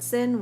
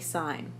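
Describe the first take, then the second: First: The word has a short 'i' vowel. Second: The word has a long 'eye' vowel. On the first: The speaker calls it wrong. "we don't call it sin" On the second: The speaker calls it right. "we say sine"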